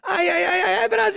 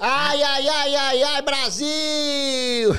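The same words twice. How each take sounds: First: Very high, loud shouted cry; Bolívia catchphrase. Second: Slow, laughing drawn-out cry; Bolívia catchphrase. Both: Retold or imitated. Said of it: "Bolívia do Desimpedidos".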